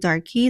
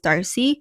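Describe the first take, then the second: First: The middle consonant is a hard k sound. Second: The middle consonant is a soft s sound. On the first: The speaker calls it wrong. "I kept saying Darky" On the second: The speaker calls it right. "so it's Darcy"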